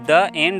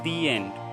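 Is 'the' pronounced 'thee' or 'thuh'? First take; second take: thuh; thee. First: 'The' is said with a short 'uh' vowel. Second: 'The' is said with a long 'ee' vowel. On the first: The speaker calls it wrong. "ये गलत है" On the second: The speaker calls it right. "ये लिखा है दी एंड"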